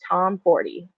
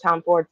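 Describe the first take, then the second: First: The name ends like the number forty. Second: The name ends like the word Ford. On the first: The speaker calls it right. "but it is Tom forty, like the number" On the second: The speaker calls it wrong. "I've been saying Liz Tom Ford for two years"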